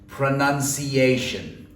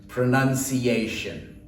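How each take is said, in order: The two takes are said the same way.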